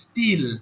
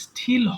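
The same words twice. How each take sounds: First: The t is plain, without a puff of air. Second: The t is said with a puff of air. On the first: The speaker calls it right. "যেমন স্টিল" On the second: The speaker calls it wrong. "এটা কিন্তু স্টিল হবে না"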